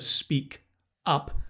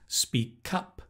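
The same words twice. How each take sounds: First: The two words are said separately. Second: The final consonant links into the next vowel. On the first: "Instead of speak up" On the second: "So you can link"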